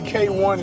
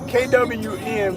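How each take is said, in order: First: The name is said as 'K' plus 'one'. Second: The name is spelled out as three letters. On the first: This is how the artist says the name. The speaker calls it right. "he say K one is how you pronounce it" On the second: This is how other people say the name. The speaker calls it wrong. "They say K W N"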